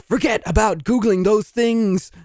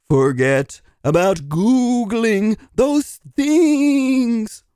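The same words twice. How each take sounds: First: Brisk, insistent correction; emphatic retraction. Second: Very slow, drawn-out hypnotic chant; hypnotist. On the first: Applicant taking back a remark to the interviewer, emphatic. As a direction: firmly take it back, emphatically. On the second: Applicant trying to hypnotize the interviewer, slow and hypnotic. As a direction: stretch every word as if putting them under. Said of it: "Can I hypnotize you?". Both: Acted.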